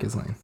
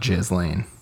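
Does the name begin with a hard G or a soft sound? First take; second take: hard G; soft. First: The name begins with a hard G sound. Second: The name begins with a soft, non-G sound. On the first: "I thought it was more of a G sound"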